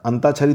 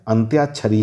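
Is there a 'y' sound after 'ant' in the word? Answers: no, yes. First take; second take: no; yes. First: It is said without a y after ant. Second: It is said with a y after ant. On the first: The speaker calls it wrong. "अंताक्षरी तो होता नहीं है" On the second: The speaker calls it right. "अंत्याक्षरी ही होता है"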